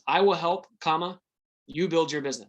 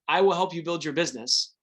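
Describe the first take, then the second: First: There is a pause after help. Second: It is said without a pause after help.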